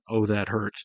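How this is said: It is said in a genuine, pained tone. The speaker is really hurt. "a legitimate"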